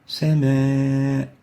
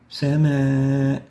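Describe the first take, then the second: First: The word sounds light and thin. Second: The word sounds light and thin.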